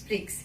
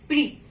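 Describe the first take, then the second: First: The final consonant is sounded. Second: The final consonant is silent. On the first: The speaker calls it wrong. "We will not pronounce prix" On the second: The speaker calls it right. "Here it is pre"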